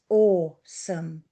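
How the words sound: It is said in a slow, solemn, reverent way. Something inspires true awe and worship. The speaker calls it right. "We do it with reverence"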